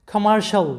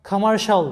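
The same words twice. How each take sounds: The two takes are said the same way.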